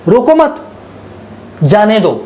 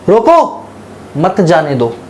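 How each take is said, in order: First: There is a pause after the word 'mat'. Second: There is a pause after the word 'roko'. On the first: "मैंने comma लगा दिया" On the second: "अगर मैं इस comma को हटा के यहां लिख दूं"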